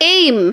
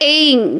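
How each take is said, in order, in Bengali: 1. শব্দটি একটি বন্ধ m ধ্বনিতে শেষ হয়। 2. শব্দটি একটি অনুনাসিক ng ধ্বনিতে শেষ হয়। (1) "যদি ইংরাজিতে আমাকে লিখতে হয় এ আই এম" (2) "কিন্তু উচ্চারণে ওটা হয়ে যাবে এইং"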